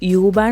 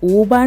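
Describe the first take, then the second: First: The word begins with a 'yoo' sound. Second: The word begins with an 'oo' sound. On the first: The speaker calls it wrong. "യൂബാൻ എന്നല്ല" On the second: The speaker calls it right. "ഊബാൻ എന്നാണ് പറയുക"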